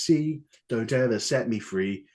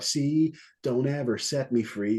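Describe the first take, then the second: First: It is said in a British accent. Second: It is said in an American accent. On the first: "But [name] goes" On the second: "I think an American would be like"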